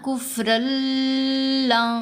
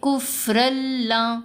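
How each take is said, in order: First: The merged sound is held long and nasal. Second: The merged sound is short without nasal hold. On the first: The speaker calls it wrong. "रा और लाम को मिलाते हुए आवाज़ को लंबा किया तो ये गलत है" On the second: The speaker calls it right. "यहाँ पढ़ेंगे कुफरल्ला"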